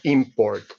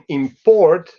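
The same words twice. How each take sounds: First: The stress is on the first syllable. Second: The stress is on the second syllable. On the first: It is used as a noun. "an instance of import" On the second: It is used as a verb. "You can import"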